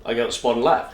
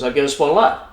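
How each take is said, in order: First: Said in the usual way. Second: Louder, higher repeat of a quoted answer; emphatic retold repeat. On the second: Old man repeats himself to a puzzled photographer, louder and emphatic. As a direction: say it up and out for a listener who missed it.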